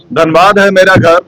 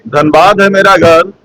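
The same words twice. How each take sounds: The two takes are said the same way.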